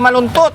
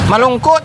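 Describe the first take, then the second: First: The middle consonants sound like 'nt'. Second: The middle consonants sound like 'ngk'. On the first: The speaker calls it wrong. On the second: The speaker calls it right.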